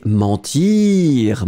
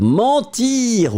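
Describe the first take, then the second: First: Said in the usual way. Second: "Mentir" repeated higher in mock disapproval; mock shocked. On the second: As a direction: echo "Mentir" as if scandalised. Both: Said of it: "Ouh, ça n'est pas beau".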